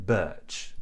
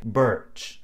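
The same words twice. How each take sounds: First: "birch" with a silent R, as in RP; non-rhotic vowel. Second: "birch" with the R pronounced, American style; rhotic R. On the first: Teacher contrasting her BBC English standard, R-less "birch". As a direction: keep the tongue relaxed in "birch", no R. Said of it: "the R after the vowel is silent". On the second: Teacher showing other English accents, R sounded in "birch". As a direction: curl the tongue up and back in "birch". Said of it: "the R is actually pronounced". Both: Shown as a demonstration.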